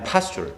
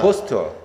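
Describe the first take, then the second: First: It is said with an American-style accent. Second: It is said with a British-style accent. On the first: "약간 서부 쪽 발음이야" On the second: "동부는 약간 영국식 발음이거든요"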